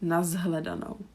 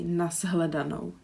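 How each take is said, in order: First: The cluster is voiced, like z plus h. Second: The same.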